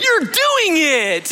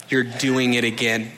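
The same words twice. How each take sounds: First: High, slow, sing-song praise; encouraging. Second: Lower, softer pointed reminder; mildly reproachful. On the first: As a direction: cheer your child on, much higher and drawn out. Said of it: "an encouraging, like". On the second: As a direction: quietly call him out, low and flat. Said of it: "It was like". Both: Retold or imitated.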